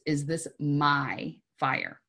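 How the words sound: The stress is on "my".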